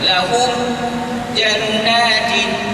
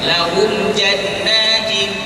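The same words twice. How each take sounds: First: There is a brief stop after lahum. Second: The words flow on without a stop. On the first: The speaker calls it wrong. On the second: The speaker calls it right.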